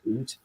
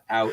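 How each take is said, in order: First: The vowel sounds like 'oo'. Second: The vowel sounds like 'ow'. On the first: "like when like in Canadian, ... it's oot" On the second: "it's not out"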